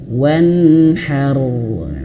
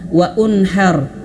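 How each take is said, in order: First: No extra vowel comes before nhar. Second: An extra u vowel comes before nhar. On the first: The speaker calls it right. "tidak dilafalkan, wan langsung wanharu" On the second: The speaker calls it wrong. "Tidak sedikit yang baca seperti itu"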